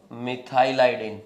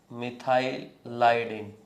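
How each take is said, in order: First: Said in the usual way. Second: मिथाइलाइडिन drawn out slowly in two parts; slow, split repeat. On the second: Shown as a demonstration. Teacher repeats the new term after asking what was said, slowly split. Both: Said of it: "क्या बोला?".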